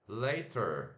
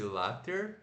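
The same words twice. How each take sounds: First: The first vowel is an 'ay' glide sound. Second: The first vowel is an open 'ah' sound. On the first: The speaker calls it right. "Mas se pronuncia assim" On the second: The speaker calls it wrong. "como se fosse later"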